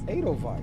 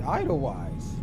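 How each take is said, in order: First: The first syllable sounds like 'ay'. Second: The first syllable sounds like 'eye'. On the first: The speaker calls it right. "It's it sounds like A as in A Y" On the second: The speaker calls it wrong. "I would have said Idlewise"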